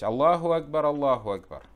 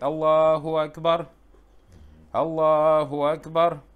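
First: The two phrases are joined together as a pair. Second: The two phrases are split apart, not joined. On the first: The speaker calls it right. "такбиры в азане даются как попарно" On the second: The speaker calls it wrong. "Некоторые муаддины дают азан так"

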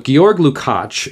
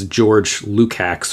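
First: The first name is not said like English George. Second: The first name is said like English George. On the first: The speaker calls it right. "is how this name is pronounced" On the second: The speaker calls it wrong. "you probably look at that and think it's George Lukács"

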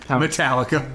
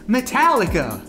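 First: The name is said in a flat, plain way. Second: The name is said with loud, dramatic energy. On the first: The speaker calls it wrong. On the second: The speaker calls it right.

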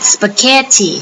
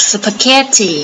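Both takes have the same delivery.

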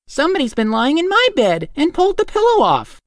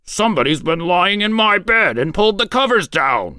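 First: It is said in a middle-sized voice. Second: It is growled in a great big voice.

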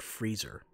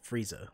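First: The word is said carefully as 'freezer'. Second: The word is said like the name 'Frieza'. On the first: The speaker calls it right. "the word freezer" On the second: The speaker calls it wrong. "I said Frieza, like it was fucking Dragon Ball"

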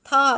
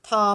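First: The syllable has a falling tone. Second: The syllable has a mid level tone. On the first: "รูปวรรณยุกต์เอกแต่เสียงวรรณยุกต์โท" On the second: "ไม่มีรูปวรรณยุกต์แต่เสียงสามัญ"

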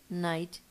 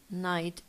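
The two takes are said the same way.

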